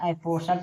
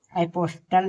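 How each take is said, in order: First: "एपोसल" with s and no t; silent-t reading of "एपोसल". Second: "एपोस्टल" with an audible t after s; T sounded. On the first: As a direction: say "एपोसल", s straight into -al. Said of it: "इसे एपोसल पढ़ेंगे". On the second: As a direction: say "एपोस्टल" with the st cluster. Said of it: "इसे एपोस्टल नहीं". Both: Shown as a demonstration.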